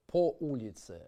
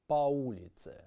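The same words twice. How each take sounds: First: По улице with по said pa; по said pa, light and reduced; correct reduced o. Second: По улице with по said as a full round po; wrong full o. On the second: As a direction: por round o on по. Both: Shown as a demonstration. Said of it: "instead of".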